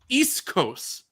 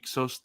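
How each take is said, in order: First: The middle sounds are said as s then k. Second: The middle sounds are said as k then s. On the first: This is how it is written in the script. "I'll say it slowly. ... is how it's written" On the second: This is how it is said on screen. "That's how she says"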